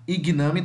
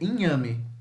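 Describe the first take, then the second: First: The g and n are pronounced as separate sounds. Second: The g and n merge into one 'ny' sound. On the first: The speaker calls it wrong. "Se você falar igname, tá errado" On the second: The speaker calls it right. "É inhame, inhame, igual"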